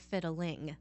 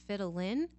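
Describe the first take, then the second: First: The word ends in a full ng sound. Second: The word ends in a plain n sound.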